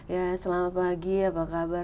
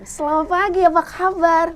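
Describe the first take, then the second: First: It is said with low, half energy. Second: It is said with high, full energy.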